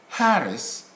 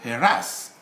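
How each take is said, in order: First: The stress is on the first syllable. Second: The stress is on the second syllable. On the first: "You stress on the first" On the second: "or the second syllable"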